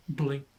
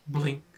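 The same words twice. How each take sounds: The two takes are said the same way.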